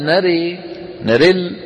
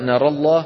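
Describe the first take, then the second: First: The vowel on the r is tilted toward e. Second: The vowel on the r is open. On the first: "ناري بإمالة الكسرة" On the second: "فيقرأ بالفتح"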